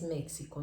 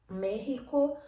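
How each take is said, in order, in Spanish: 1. La x suena como ks. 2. La x suena como una h gutural. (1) "no es México, nunca fue" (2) "como si en lugar de la X tuviéramos una letra J"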